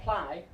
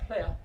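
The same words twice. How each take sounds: First: Ply with a long eye vowel; wrong vowel. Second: Ple with a short vowel, not eye; right short vowel. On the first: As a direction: say ply to rhyme with sky. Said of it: "not ply". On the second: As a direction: sound out ple as a short clipped-off syllable. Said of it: "but ple". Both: Shown as a demonstration.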